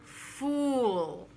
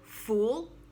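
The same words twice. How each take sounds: First: The word is drawn out, almost two syllables. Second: The word is one short syllable. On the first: "or a little longer" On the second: "it can be one short syllable"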